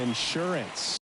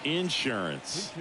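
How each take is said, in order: First: It is said in a standard accent. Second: It is said in a Southern accent.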